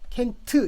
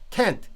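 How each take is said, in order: First: It is said with Korean sounds and syllables. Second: It is said with English-like sounds. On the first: It is just a sound, not English. The speaker calls it wrong. "이 캔트 캔트 이렇게 하면 이거는 그냥 여기 있는 소리예요" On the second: It counts as English. The speaker calls it right. "제가 자부하기로 여기는 들어가요"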